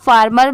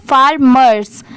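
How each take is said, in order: First: फार्मर said without the final s sound; wrong form without s. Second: Said in the usual way. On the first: Shown as a demonstration. Teacher showing students the wrong form without s. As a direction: drop the s from फार्मर as the mistake to avoid. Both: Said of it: "इसे सिर्फ आप फार्मर मत पढ़िएगा".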